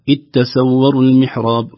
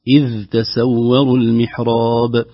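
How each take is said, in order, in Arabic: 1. يُدغم صوت الذال في التاء التي بعدها. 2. يُنطق صوت الذال واضحًا قبل التاء. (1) "فتجد بعض لا يقول اتسور المحراب" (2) "بظهور الذال وتخليصها من التاء"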